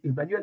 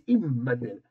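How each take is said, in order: First: The name begins with an 'eh' vowel. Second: The name begins with an 'ee' vowel. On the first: This is how people usually say it. The speaker calls it wrong. "on dit Emmanuel" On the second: This is the original form of the name. The speaker calls it right. "mais c'est Immanuel"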